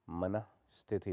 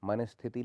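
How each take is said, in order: First: मनस्थिति split as manah, sthiti; sounded visarga. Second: मनस्थिति run together as manasthiti; no h inside मनस्थिति; no visarga. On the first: Teacher corrects it, मनस्थिति with visarga. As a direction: breathe an h after मन in मनस्थिति. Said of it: "होता है". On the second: Teacher shows the error, मनस्थिति without visarga. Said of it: "नहीं होता". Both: Shown as a demonstration.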